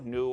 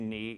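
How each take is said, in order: First: The vowel sounds like 'oo'. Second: The vowel sounds like 'ee'. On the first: This is how some people pronounce it. "some pronounce it a nu" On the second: This is the pronunciation learned from a German. "I learned me, ni"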